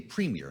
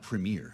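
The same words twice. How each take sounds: First: It is said the Canadian way. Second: It is said the American way. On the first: The speaker calls it right. "You know they say premier" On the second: The speaker calls it wrong. "not premier in Canada"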